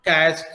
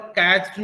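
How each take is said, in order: First: कैच्ड ending in a voiceless "t", like "catcht". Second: कैच्ड with a voiced "d" at the end. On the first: Teacher giving the corrected form, कैच्ड with a t. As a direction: set कैच्ड apart, closing on t. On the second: Teacher contrasting the wrong form, कैच्ड with a voiced d. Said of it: "कैच्ड नहीं होगा बल्कि". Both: Shown as a demonstration.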